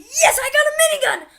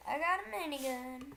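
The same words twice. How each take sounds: First: Fast, high, loud cry of joy; excited shout. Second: Softer, lower, to yourself; quiet. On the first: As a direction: yell it like you hit the jackpot. Gets a new weapon. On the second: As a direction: mutter it, still pleased. Repeats after the shouts. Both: Real, not acted.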